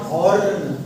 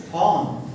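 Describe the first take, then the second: First: Horn with the R pronounced; R wrongly sounded. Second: Horn said as "hawn", no R; silent R. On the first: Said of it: "not horn". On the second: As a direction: drop the R in horn, long "aw". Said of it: "The pronunciation is horn, not horn". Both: Shown as a demonstration.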